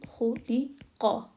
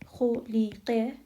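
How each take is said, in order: First: The final qa has an open father-like vowel. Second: The final qa has a thin, light vowel. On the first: The speaker calls it right. "where this qa goes up, like the A in father" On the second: The speaker calls it wrong. "we don't say khuliqa"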